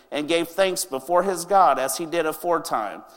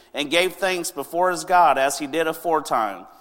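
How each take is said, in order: Both takes have the same delivery.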